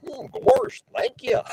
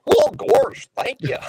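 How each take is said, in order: First: High, whooping cartoon dog voice; Goofy voice. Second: High cartoon voice, fading to a breathy giggle; Goofy voice. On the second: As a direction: squeak it out like a goofy cartoon dog. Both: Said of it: "I'm gonna do my Goofy voice".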